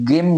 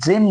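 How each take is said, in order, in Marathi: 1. हा शब्द कडक g आवाजाने सुरू होतो. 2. हा शब्द j आवाजाने सुरू होतो. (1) "गेम म्हणत नाही" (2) "इथं आपण जेम म्हणतो"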